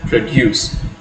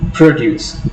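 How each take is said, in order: First: The stress is on the second syllable. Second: The stress is on the first syllable. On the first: It is used as a verb. "if you are using it as a verb, you have to pronounce it as produce" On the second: It is used as a noun. "when you are stressing the first syllable"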